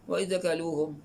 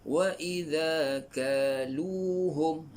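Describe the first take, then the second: First: The long vowels are not held for two beats. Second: Each long vowel is held for two beats. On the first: The speaker calls it wrong. "Ramai juga bila baca wa idza kaluhum, ha, salah" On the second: The speaker calls it right. "Ketiga-tiga ni mad asli. ... maka kena baca dengan"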